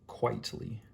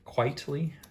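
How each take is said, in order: First: The name is said with two syllables, quite-ly. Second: The name is said with three syllables, like quietly. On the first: The speaker calls it right. "the way it's spelled" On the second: The speaker calls it wrong. "My friend said I'm saying it wrong"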